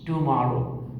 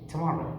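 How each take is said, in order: First: Every sound in the word is said fully. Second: A sound in the word is dropped or shortened. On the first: "they will not pronounce the word as" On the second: "they'll say ... that's called elision"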